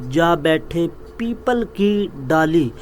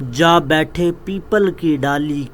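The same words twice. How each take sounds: No difference in how they are said.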